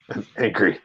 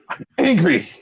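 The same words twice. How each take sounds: First: Low, soft grumble; subdued anger. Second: Higher-pitched complaint, mild annoyance; mildly angry. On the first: Fan let down by the missing shoe, low subdued anger. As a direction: drop it down into a quiet complaint. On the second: Fan upset that no shoe got thrown, mildly angry. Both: Real, not acted.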